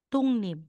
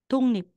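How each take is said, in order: No difference in how they are said.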